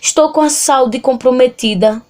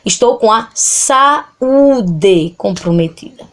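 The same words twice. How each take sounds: First: In saúde, a and u glide into one syllable. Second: In saúde, a and u are separate syllables. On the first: The speaker calls it wrong. "A gente não fala assim" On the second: The speaker calls it right. "A gente fala"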